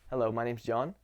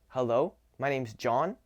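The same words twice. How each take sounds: First: The greeting sounds ordinary and neutral. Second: The greeting sounds warm and forceful. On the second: "warm and aggressive"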